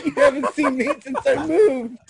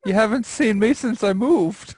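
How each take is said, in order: First: Higher, laughing whiny imitation; mock sad whine. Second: Hurt complaint. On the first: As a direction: imitate him whining, laughing. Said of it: "Mark said". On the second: Real, not acted. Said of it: "he is so sad right now".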